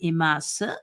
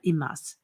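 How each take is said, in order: First: The final u vowel is pronounced. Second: The final u vowel is dropped. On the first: Women say it this way. "the women will pronounce the U at the end" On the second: Men say it this way. "the men will not"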